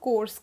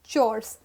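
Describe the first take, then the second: First: The word starts with a k sound. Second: The word starts with a ch sound. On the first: The speaker calls it wrong. "not course" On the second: The speaker calls it right. "Pronounced as chores"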